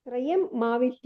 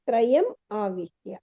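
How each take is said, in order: First: The m sound is heard twice, across the break. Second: The m sound is heard once, before the vowel. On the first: The speaker calls it wrong. "ಅನ್ಬಾರ್ದು" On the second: The speaker calls it right. "ಇಲ್ಲದ್ರೆ ತ್ರಯಂ ಆವಿಶ್ಯ"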